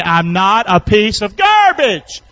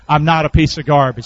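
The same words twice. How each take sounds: First: Louder. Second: Said in the usual way. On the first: Shown as a demonstration. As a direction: belt it out for the congregation to repeat, stretching "garbage". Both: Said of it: "Say it a little bit louder".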